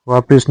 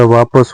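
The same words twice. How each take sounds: First: वापिस with an i; wrong vowel. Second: वापस with short a; correct vowel. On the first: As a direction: say वापिस as "vaapis". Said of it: "नहीं होता". (वापिस में इ) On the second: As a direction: say वापस as "vaapas". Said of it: "होता है". (वापस में अ) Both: Shown as a demonstration.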